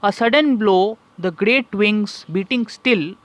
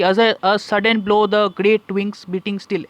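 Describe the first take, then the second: First: The line is read with a strong rhythmic beat. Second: The line is read plainly without a marked beat. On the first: The speaker calls it right. "ऐसे करके" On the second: The speaker calls it wrong. "ऐसे करके नहीं बोलते"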